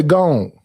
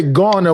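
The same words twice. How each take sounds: First: "gone" as one long-o syllable, like "gohn"; Southern one-syllable "gone"; Southern pronunciation. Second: "gonna" in two clear syllables, gon-na; careful two-syllable "gonna"; standard pronunciation. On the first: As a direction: shrink gonna to a single "gone". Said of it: "we say gone". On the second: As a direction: say both syllables of "gonna" distinctly. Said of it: "we don't say gonna". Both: Shown as a demonstration.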